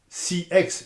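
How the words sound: The letters are said with English letter names. "et le C X en C X"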